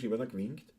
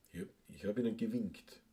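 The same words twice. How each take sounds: First: Broad Viennese dialect pronunciation. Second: Careful standard German pronunciation. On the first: Asking listeners how Vienna would say it, in Viennese. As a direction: run it together as casual Viennese, softly. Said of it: "sagt man nicht eher auf Wienerisch". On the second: Trying out the proper German form on listeners, standard German. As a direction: say it in textbook standard German, softly. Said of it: "heißt das auf Deutsch". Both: Shown as a demonstration.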